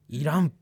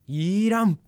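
First: The word is said short, without lengthening. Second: The word is drawn out and lengthened.

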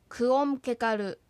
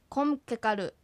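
First: The prefix ku is said as a full separate syllable. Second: The prefix merges with the verb into one shortened syllable. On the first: "くをつけてくオムケカルとすればよい" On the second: "短く縮まった形になります"

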